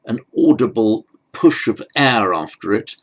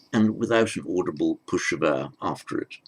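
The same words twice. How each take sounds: First: "push of air" pushed out louder with a rise; stressing the air. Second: "without" stressed, the rest softer and lower. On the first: Teacher contrasting aspiration for students, emphatic. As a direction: lean on "air" with an audible puff. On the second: Teacher contrasting aspiration for students, softer. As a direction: hit "without", then let the line drop. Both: Shown as a demonstration. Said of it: "a consonant is pronounced with".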